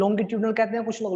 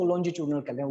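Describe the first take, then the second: First: Longitudinal said with a hard g, "longi-tyudinal"; hard-g longitudinal, as some people say it; variant pronunciation. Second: Longitudinal said with a soft j, "lonji-choodinal"; soft-g longitudinal, "lonji-choo-dinal"; variant pronunciation. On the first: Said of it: "longitudinal कहते हैं, whatever you call it". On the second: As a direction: say longitudinal with j and ch sounds. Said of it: "whatever you call it". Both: Shown as a demonstration.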